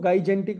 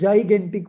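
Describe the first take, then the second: First: The word begins with a hard g sound. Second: The word begins with a j sound. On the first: The speaker calls it wrong. "पहले हम इसको गाइजेंटिक बोलते थे" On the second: The speaker calls it right. "तो ये जाइगेंटिक बोला जाता है"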